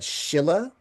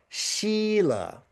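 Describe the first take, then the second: First: The first vowel is a short i sound. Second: The first vowel is a long ee sound. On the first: The speaker calls it wrong. "like a short I" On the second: The speaker calls it right. "it's a long I"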